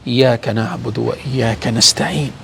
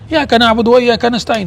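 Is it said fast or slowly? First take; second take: slowly; fast. First: It is said slowly and softly. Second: It is said quickly, rushed over.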